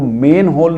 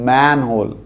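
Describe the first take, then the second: First: The first vowel sounds like 'men'. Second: The first vowel sounds like 'man'. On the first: The speaker calls it wrong. "वो मेन होल नहीं होता" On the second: The speaker calls it right. "That is मैन होल"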